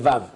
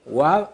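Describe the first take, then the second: First: The word begins with a v sound. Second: The word begins with a w sound.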